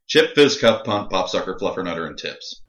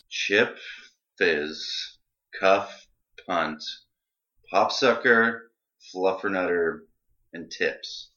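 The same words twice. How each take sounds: First: The list is said at a normal pace. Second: The list is said more slowly.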